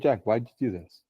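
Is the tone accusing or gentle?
gentle. The question sounds soft and gently curious. The asker is curious and caring. "a loving presence that is able to meet you with genuine curiosity"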